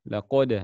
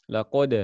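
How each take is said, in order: No difference in how they are said.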